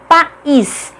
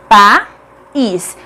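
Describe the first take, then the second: First: "país" with a small break before the stressed "ís"; slightly split syllables. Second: "País" broken into pa... ís, long pause between; syllable by syllable. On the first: ("país" com leve separação entre as sílabas) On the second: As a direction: sound out "País" as two separate syllables. ("País" silabado, com pausa: pa... ís) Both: Shown as a demonstration. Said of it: "Cada uma fica em uma sílaba diferente".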